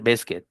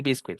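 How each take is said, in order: First: Biscuit said "BIS-kit"; correct English pronunciation. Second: Biscuit mispronounced "bis-kwit"; wrong pronunciation. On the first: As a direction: silent U in biscuit. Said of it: "vas a decir biscuit". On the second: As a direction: sound the U in biscuit as W. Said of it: "en inglés no vas a decir biscuit". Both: Shown as a demonstration.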